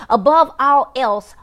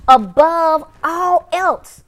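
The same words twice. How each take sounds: First: "Above all else" read slowly and firmly; measured scripture reading. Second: "Above all else" drawn out very slowly, high and loud; emphatic repetition. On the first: Preacher reads the verse to viewers, measured emphasis on "Above all else". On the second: Preacher repeats the verse for viewers, heavy drawn-out emphasis on "Above all else". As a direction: hammer each word of "Above all else", stretching it. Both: Real, not acted.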